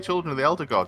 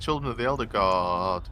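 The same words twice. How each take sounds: First: The word God is said short and normally. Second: The word God is drawn out for long. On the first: The speaker calls it right. "you say" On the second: The speaker calls it wrong. "You don't say"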